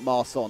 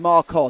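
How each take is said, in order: First: The middle consonant is an s sound. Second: The middle consonant is a k sound. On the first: The speaker calls it wrong. "not Marson" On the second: The speaker calls it right. "it's Marcon"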